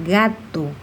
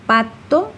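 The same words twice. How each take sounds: First: GATO set apart, with a hard initial G; clear G sound. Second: PATO set apart, with a clear initial P; clear P sound. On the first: Teacher contrasting it with pato, gato enunciated with hard G. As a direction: say "gato" carefully as a minimal-pair example. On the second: Teacher showing children's sound confusions, pato enunciated with P. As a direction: say "pato" carefully as a minimal-pair example. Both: Shown as a demonstration. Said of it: "en la pronunciación de estas consonantes".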